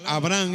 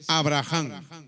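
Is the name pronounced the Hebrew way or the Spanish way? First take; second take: Spanish; Hebrew. First: The name is pronounced the Spanish way. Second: The name is pronounced the Hebrew way. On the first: "en nuestro dialecto al español o al castellano" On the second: "en el idioma hebreo es Abraham"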